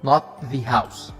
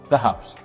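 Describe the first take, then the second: First: 'The' is said with a long 'thee' sound. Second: 'The' is said with a short 'thuh' sound. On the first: The speaker calls it wrong. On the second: The speaker calls it right. "so this is the"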